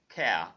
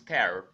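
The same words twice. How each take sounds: First: It is said in a standard British accent. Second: It is said in a General American accent. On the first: "The standard pronunciation for that word, C A R E, is care" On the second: "In G A, it is care"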